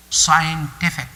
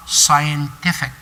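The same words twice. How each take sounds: The two takes are said the same way.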